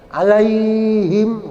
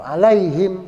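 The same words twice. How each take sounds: First: "Alaihim" with lai stretched very long; wrongly lengthened. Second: "alaihim" with a short lai; not lengthened. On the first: Teacher showing the forbidden reading, "Alaihim" with overlong lai. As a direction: drag out the middle of "Alaihim" slowly. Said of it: "nggak boleh ya". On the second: Teacher showing mid-verse reading, "alaihim" unstretched. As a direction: say "alaihim" briskly, no held vowel. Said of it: "jangan dipanjangin". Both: Shown as a demonstration.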